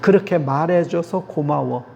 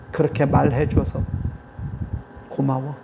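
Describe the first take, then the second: First: Said in the usual way. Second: Softer, gentle thank-you trailing off; tender thanks. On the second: Shown as a demonstration. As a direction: thank them gently and sincerely. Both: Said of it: "이런 거".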